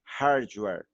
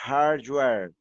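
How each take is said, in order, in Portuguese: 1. Tem sons do inglês com um R forte. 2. Tem sons do inglês com um R forte.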